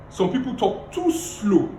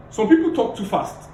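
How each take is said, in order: First: Slow, drawn-out talk; too slow. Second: Said in the usual way. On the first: Shown as a demonstration. Coach demonstrating slow pace to the class. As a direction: drag the words out slowly. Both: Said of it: "The second thing is pace".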